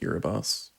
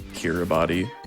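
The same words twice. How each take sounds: First: The name is pronounced the official way. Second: The name is pronounced as its letters suggest. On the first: "but it is officially pronounced Kiribati" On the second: "If you were to say it as it is, as it is spelled, it would be Kiribati"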